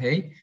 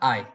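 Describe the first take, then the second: First: The diphthong starts with an E sound. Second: The diphthong starts with an A sound. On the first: This is how Spanish speakers read it. "que nosotros decimos ei" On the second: This is how German speakers read it. "se pronuncia ai"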